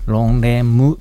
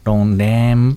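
First: The final m is released with a vowel. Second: The final m ends with the lips closed. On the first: The speaker calls it wrong. "ロンレムではなく" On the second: The speaker calls it right. "最後唇を閉じるような感じで発音する"

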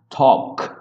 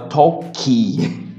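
First: The word ends sharply on the k sound. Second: An extra vowel follows the final k sound. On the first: The speaker calls it right. "a palavra termina com K" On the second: The speaker calls it wrong. "a gente quer falar talkie, para colocar um outro som ali"

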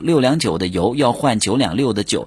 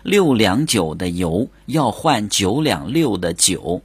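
First: It is said fast. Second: It is said slowly.

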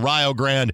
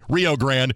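First: It is said with the Ohio pronunciation. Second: It is said with the standard pronunciation. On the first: The speaker calls it wrong. "the Ohio pronunciation" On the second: The speaker calls it right.

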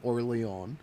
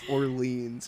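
First: The name is said with a French pronunciation. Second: The name is said with an English pronunciation. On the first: "If you're French, you would pronounce it Orléans" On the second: "I know it's Orleans"

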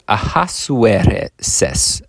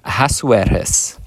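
First: The name is said with a Mexican accent. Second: The name is said without a Mexican accent.

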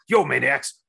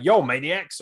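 First: It is said in an impersonated wrestler's voice. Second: It is said in the speaker's own normal voice.

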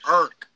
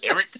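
First: The name is squeezed into one syllable, Baltimore style. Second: The name has two clear syllables, standard style. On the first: "We say Irk" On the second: "We don't say Eric"

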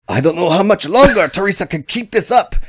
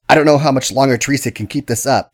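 First: It is spoken in a put-on Chinese accent. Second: It is spoken in the speaker's ordinary accent. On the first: The speaker calls it right. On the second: The speaker calls it wrong.

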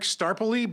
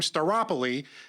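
First: The name has no extra 'o' sound inside. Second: The name has an extra 'o' sound inside.

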